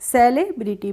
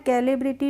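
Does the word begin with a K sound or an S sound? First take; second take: S sound; K sound. First: The word begins with an S sound. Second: The word begins with a K sound. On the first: The speaker calls it right. "सेलिब्रिटी पढ़ा है" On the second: The speaker calls it wrong. "इसको हमने कैलिब्रिटी नहीं पढ़ा है"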